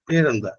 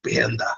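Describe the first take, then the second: First: Gently lifted, soft demo voice; soft voice of old. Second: Mock worn-out, rough voice; rough voice now. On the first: Teacher shows how they used to ask a name, soft voice. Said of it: "soft ശബ്ദമായിരുന്നു". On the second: Teacher shows how asking a name sounds now, rough voice. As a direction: drop into a spoilt, rough voice. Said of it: "ഇപ്പൊ പറയുന്നതാണ് പാറകൾ പഠിച്ചത്". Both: Shown as a demonstration.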